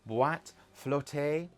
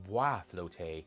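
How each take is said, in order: First: The first word ends with a t sound. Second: The first word ends without a t sound. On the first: The speaker calls it wrong. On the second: The speaker calls it right.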